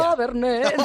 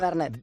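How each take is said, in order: First: The word is said with a cheerful, lively tone. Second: The word is said flat, without expression. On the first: "Dele un poquito de alegría" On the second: "me lo has dicho muy plano"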